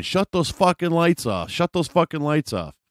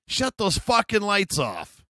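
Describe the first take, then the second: First: High-pitched repeated yell; mock a woman screaming in irritation; high, insistent retold holler; imitated screaming. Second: High, drawn-out yell across the water; slow, high-pitched retold holler; mock screaming. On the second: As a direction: imitate a woman screaming, pitched way up. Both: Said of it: "she's just screaming".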